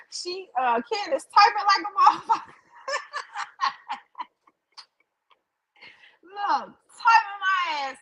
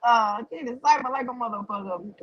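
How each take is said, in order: First: Laughing. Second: Said in the usual way. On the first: Real, not acted. Laughing at chat about her typing.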